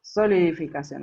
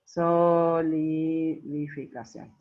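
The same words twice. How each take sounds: First: Said in the usual way. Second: «Solidificación» muy lento, con las primeras sílabas estiradas; dictado silabeado. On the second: Real, not acted. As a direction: alarga «so» y «li» de «Solidificación» como quien escribe. Dicta mientras lo escribe. (dictando lentamente, sílaba por sílaba)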